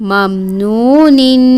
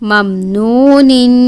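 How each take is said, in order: Both takes have the same delivery.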